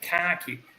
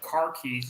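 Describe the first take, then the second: First: It is said like 'khaki', Boston style. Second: It is said in a standard accent. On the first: "It's like car key. ... like it's a khaki color ... that weird fucking the Boston thing" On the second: "It's not car keys"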